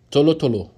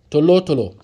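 Both takes have the same delivery.

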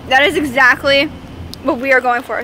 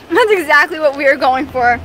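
First: Talking through a mouthful of boba; words round a mouthful of boba; mouth full. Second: Said in the usual way. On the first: Real, not acted. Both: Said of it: "Sorry, I have boba in my mouth".

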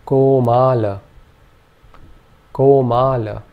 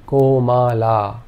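First: Komala with a shortened final vowel; vowel contrast. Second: Komala drawn out slowly, every vowel long; all vowels long. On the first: Teacher contrasting vowel lengths in komala. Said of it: "In this case, we would say". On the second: Teacher showing all long vowels in komala. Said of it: "all three vowel sounds are long". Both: Shown as a demonstration.

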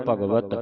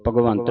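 First: ਭਗਵਤ with no n, "bhagvat"; correct reading. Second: ਭਗਵੰਤ with an n before final t; wrong reading. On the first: Teacher models the word for students, "bhagvat" without n. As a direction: end on plain "vat". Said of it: "ਭਗਵੰਤ ਨਹੀਂ ਬੋਲਣਾ ਇਹਨੂੰ". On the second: Teacher shows the misreading to avoid, "bhagvant" with n. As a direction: say "bhagvant", nasal n included. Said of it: "ਭਗਵੰਤ ਨਹੀਂ ਬੋਲਣਾ". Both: Shown as a demonstration.

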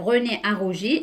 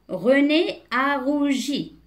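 First: Said in the usual way. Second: Slow, higher-pitched teacher's reading; deliberate, word-by-word reading; slow model reading. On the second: Shown as a demonstration. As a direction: read it out slowly for beginning readers. Slow model reading, later explained.

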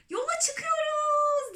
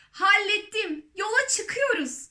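First: Very high, slow, drawn-out cry; chorus-like shout. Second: High, excited announcement; triumphant call. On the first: The others echoing the centipede, long high cheer. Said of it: "diye bağırdı öbürleri de". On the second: Centipede calling down from the ceiling, triumphant cry. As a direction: call it out proudly, pitched high. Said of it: "bakıp seslendi". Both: A narrator's reading.

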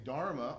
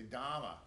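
First: Said in the usual way. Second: Boston-style Dhamma with the R dropped; Dhamma, R-less as in Boston; Boston accent. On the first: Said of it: "rather than saying Dharma". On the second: Shown as a demonstration. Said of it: "it's a Boston accent".

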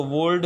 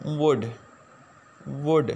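First: वुड with the L sounded, wold; wrong pronunciation. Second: वुड as wood, L silent; वुड said short, wood, no L; correct pronunciation. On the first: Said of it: "इसको वुड नहीं पढ़ना". (वुड गलत उच्चारण में, एल बोलकर) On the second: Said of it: "जिसकी जो correct pronunciation है वो है". (वुड का सही उच्चारण, एल खामोश) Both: Shown as a demonstration.

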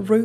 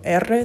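First: "R" said as a bare sound, not the letter name; Costa Rican R. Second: Said in the usual way. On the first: Shown as a demonstration. Showing viewers how Costa Rica says R, "R" as a Costa Rican sound. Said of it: "se pronuncian diferente". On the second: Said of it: "algunas de las letras se pronuncian diferente".

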